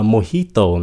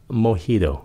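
First: "mojito" said mo-HEE-to, clear t. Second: "mojito" said mo-HEE-do, t softened to d; majority pronunciation. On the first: Teacher quoting a common variant, mo-HEE-to with hard t. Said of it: "nghe nhiều người phát âm là". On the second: Teacher showing what most people say, mo-HEE-do. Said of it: "mà đa số là mojito". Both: Shown as a demonstration.

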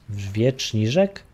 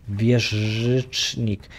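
First: "Wieczniżek" sounded out slowly and unsure, as a wrong guess; slow, puzzled stab at "Wieczniżek"; fumbled pronunciation. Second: "wieżycznik" spelled out very slowly, corrected attempt; very slow, deliberate "wieżycznik"; careful pronunciation. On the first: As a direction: drag out "Wieczniżek" syllable by syllable, unsure. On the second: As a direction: stretch "wieżycznik" out carefully, getting it right. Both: Shown as a demonstration. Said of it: "Nawet nie umiem tego wymówić".

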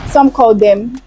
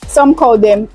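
The two takes are said the same way.

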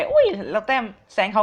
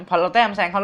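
First: Mock delighted cry, a little higher; happy to pull ahead. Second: Said in the usual way. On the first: Gamer passing a friend's score, lightly delighted. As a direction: chirp it out like you just passed a friend. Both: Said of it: "เรารู้สึกดีใจ".

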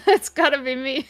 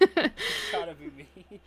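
First: Said through a laugh. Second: Shrill, drawn-out mocking echo; mocking high voice. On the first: Real, not acted. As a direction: giggle through the line. Original line, laughing. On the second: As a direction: squeal it back, slowly and high. Echoing in a high, loud voice.

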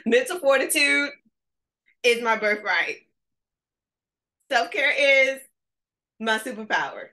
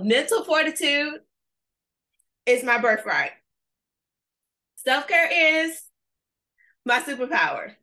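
First: Louder, higher, laughing affirmation; with your chest. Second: Chanted, high, loud, punchy declaration; chanted, proclaim it like a battle cry; chanted affirmation. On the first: Coach demonstrating the affirmation again, fuller and laughing. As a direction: belt it from the chest. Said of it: "say it with your chest". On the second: Chanted, coach leading a virtual audience in an affirmation, loud and high. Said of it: "we can still interact virtually". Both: Shown as a demonstration.

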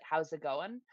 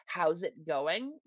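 First: Clipped fast mumble of a greeting; quick slurred greeting. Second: Slow, drawn-out rural greeting; slow rural drawl. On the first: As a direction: rush it together like one word. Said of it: "fast enough, like". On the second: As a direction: stretch the words out lazily. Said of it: "quick enough, or s-, fast enough". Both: Shown as a demonstration.

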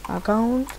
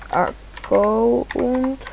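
First: Said in the usual way. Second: "account" slowly split as ac-co-unt; spell-reading "account" with Spanish vowels, ac-co-UNT; sounded out as written. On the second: Real, not acted. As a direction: drag out each syllable of "account" while typing. Sounds out the word while typing.

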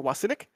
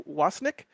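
First: "Wasinick" in three syllables, with an added middle vowel; alternative name pronunciation. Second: "Wasnik" in two syllables, questioning rise; tentative name pronunciation. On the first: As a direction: say "Wasinick" as WAS-i-nik. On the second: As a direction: say "Wasnik" as WAS-nik, unsure. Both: Shown as a demonstration. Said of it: "I'm mispronouncing your name".

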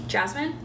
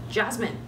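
First: Jasmine? rising higher, unsure if she hears; lightly voiced worried call as she sways; worried questioning call. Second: Jasmine! falling, firm call; mild urgent call of her name. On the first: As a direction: call her name as a question. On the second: Acted. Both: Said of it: "called her by her name".

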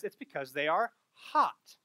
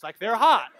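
First: Spoken slowly, meaning the weather is hot; calmly explains it's hot outside; slow, plain explanation. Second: "hot" punched louder, meaning good looking; stress on hot. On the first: Retold or imitated. Husband slowly explains to his wife it is hot, plainly. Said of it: "he says". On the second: Shown as a demonstration. Misheard husband's words as praising the women, stressed loudly. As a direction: lean on "they're hot" as in attractive. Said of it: "what he was actually saying".

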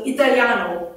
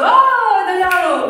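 First: Said in the usual way. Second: Italiano with a laugh, higher and louder; light up with relief on Italiano; delighted Italiano. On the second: Real, not acted. She hears the husband speaks Italian, laughing with relief.

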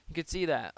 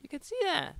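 First: Said in the usual way. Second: High squeaky replay of the crack; mimicked voice crack. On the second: Shown as a demonstration. Gamer replaying his slip, mock voice crack. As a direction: jump up high, mocking your own cracked voice. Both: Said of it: "Did my voice just crack".

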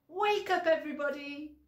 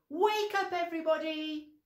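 First: High loud wake-up call again, stress on Wake. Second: High loud wake-up call. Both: Shown as a demonstration. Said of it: "we have to say".

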